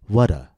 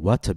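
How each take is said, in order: First: The T is a light, quick D-like tap. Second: The T is a crisp, released T sound. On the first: The speaker calls it right. "we said what a. Our T is a tap" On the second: The speaker calls it wrong. "Instead of saying what a beautiful day"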